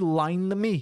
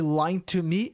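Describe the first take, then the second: First: The word 'to' is reduced to an n sound. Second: The word 'to' is pronounced fully.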